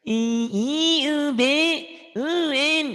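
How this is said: The vowels are squeezed in a mocking whine. The speaker calls it wrong. "kayak ngenyek gitu ya"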